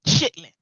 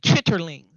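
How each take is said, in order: First: The word is shortened to two syllables. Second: The word is said fully with three syllables. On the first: This is how people commonly say it. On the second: This is the name printed on the bucket. "it would say chitterlings"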